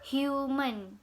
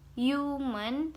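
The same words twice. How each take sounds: First: The word begins with an h sound. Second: The word begins with a y sound. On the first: "bacaan aslinya yaitu H atau H following U" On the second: "diganti menjadi Y depannya"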